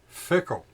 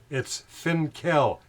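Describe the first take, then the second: First: It is said without an N before the K. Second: It is said with an N before the K. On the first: The speaker calls it wrong. "they pronounce it wrong" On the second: The speaker calls it right. "F I N K E L"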